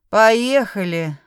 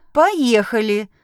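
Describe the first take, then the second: First: Drawn-out grin in the voice; smirking. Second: Said in the usual way. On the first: A narrator's reading. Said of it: "ухмыльнулся Блейк".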